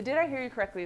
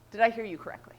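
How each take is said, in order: First: Said in the usual way. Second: Whispered, gently asking if she understood; hushed, careful question to a friend. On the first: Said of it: "is so key here". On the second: Shown as a demonstration. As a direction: breathe the question almost voicelessly. Modelling the listener's check-in line.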